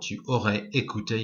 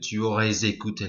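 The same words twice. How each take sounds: First: The S of aurais stays silent before écouté. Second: The S of aurais links into écouté. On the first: "you could say it separately" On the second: "you can do a liaison here if you have a vowel after the S"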